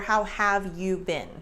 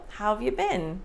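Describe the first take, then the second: First: Every word is said fully and separately. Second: Have is contracted and you becomes ya. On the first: "if you read it" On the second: "We reduce you, this shape, to ya"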